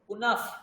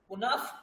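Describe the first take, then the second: First: The final sound is a light f sound. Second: The final sound is a light f sound.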